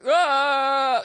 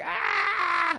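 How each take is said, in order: First: Raised, mocking grown-up wail; mocking baby cry. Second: Put-on very high, piercing baby wail; baby's cry. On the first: Comic as landlord mocking his baby, loud mimicked wail. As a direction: mimic a baby's cry to make fun of it. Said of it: "He's making fun of his baby". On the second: Comic as the landlord's baby downstairs, high wail. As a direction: imitate a screaming baby. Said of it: "the baby's like".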